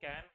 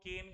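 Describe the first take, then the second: First: The vowel is an open 'a' sound. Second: The vowel is an 'e' sound. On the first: This is the usual pronunciation. "मान लो जिसको कैन" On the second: This is how some regional speakers say it. "कोई लोग केन बोलते हैं"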